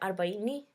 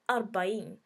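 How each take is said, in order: First: The word ends with a final 'i' vowel. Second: The word ends without a final vowel. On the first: This is the Swahili form. "we say arbaini" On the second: This is the Arabic form. "they say arbain. They don't put the n the I in uh, arbain either"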